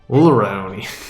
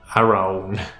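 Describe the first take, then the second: First: The opening A vowel is left out. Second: The L sound is left out. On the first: "Maybe it's the first A" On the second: "Maybe it's the L"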